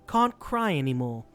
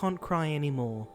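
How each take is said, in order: First: It is read in a grand, theatrical way. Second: It is read in a plain, ordinary way.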